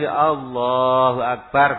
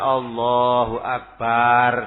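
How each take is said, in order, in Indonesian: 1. Allah dipanjangkan, dan Akbar pendek. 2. Kata kedua, Akbar, dipanjangkan. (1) "Allahnya memang harus panjang. Lah akbarnya pendek" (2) "bukan Allahu Akbar. Salah itu"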